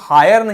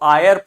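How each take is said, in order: First: The word begins with an h sound. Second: The word begins directly with a vowel. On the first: The speaker calls it wrong. "इसको हायर नहीं पढ़ते हैं" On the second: The speaker calls it right. "H silent है, इसको आयर पढ़ते हैं"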